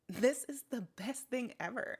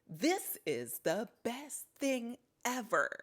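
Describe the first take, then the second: First: The words are stressed somewhat, still a bit unnatural. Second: Several words are stressed in an exaggerated way. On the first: "even that can still sound not supernatural" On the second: "accentuating certain words"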